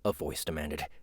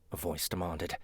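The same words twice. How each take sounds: First: It is read in the reader's usual accent. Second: It is read in a British accent. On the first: The speaker calls it wrong. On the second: The speaker calls it right.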